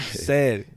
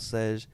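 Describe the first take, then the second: First: The name ends with a plain 'd' sound. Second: The name ends with a 'j' sound. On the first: The speaker calls it right. "said like you said something" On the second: The speaker calls it wrong. "you said Sedge"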